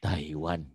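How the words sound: The voice sounds round and full from the belly. The speaker calls it right. "Taiwan gitu. Jadi artikulasinya tuh bulat lah ya"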